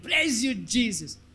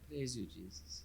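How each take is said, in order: First: It is said with excited enthusiasm. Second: It is said flatly, without enthusiasm.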